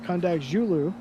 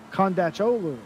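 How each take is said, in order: First: The consonant before the ending sounds like j. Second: The consonant before the ending sounds like ch. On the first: "C's are pronounced like J's" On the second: "That's how they pronounce it in the S R O series"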